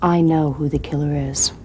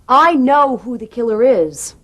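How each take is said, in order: First: It is said more softly. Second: It is said more loudly.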